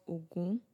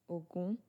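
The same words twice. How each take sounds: No difference in how they are said.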